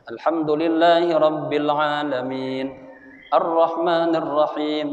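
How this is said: Each verse is recited separately with a pause. "satu ayat satu ayat"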